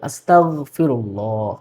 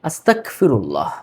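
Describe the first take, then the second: First: The consonant after 'asta' is a g sound. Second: The consonant after 'asta' is a k sound. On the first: The speaker calls it right. "কিন্তু শব্দটা হবে গ দিয়ে" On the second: The speaker calls it wrong. "আস্তাক ক দিয়ে পড়ে"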